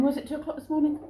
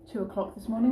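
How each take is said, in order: First: Musing aloud, pitch lifting on morning; asking herself, doubtful; unsure self-question. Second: Said in the usual way. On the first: Real, not acted. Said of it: "Can't remember".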